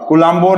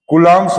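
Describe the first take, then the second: First: It is said in three syllables, like 'kulambo'. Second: It is said in two syllables, like 'koolums'. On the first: The speaker calls it wrong. "कुलाम्बो नहीं" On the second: The speaker calls it right. "कूलम्स law"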